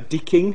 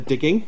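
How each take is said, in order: First: The middle consonant is voiceless. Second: The middle consonant is voiced.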